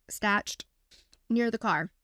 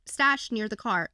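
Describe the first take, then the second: First: Stashed and near the car set apart by pauses, each landed hard; slow emphatic repeat. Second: Said in the usual way. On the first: Shown as a demonstration. Co-host drives the hammer-and-knife point home with a slow emphatic repeat. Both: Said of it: "I know".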